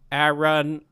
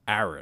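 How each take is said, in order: First: It is said in a robotic voice. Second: It is said in a natural voice.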